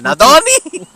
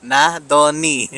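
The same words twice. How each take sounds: First: Nadoni? jumping much higher and louder; a baffled high question, Nadoni?; confused Nadoni. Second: Nadoni drawn out slowly, syllable by syllable; slow careful Nadoni. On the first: Host retells his puzzled reaction to the name, high question. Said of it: "I'm like". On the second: Host slowly sounds out the interviewee's name, careful. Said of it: "Okay, Nado". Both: Retold or imitated.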